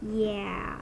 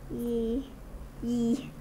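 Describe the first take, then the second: First: The word ends in an 'ah' vowel. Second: The word ends in an 'ee' vowel. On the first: The speaker calls it right. "Yeah, not yee" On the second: The speaker calls it wrong. "I forgot to say that with the A"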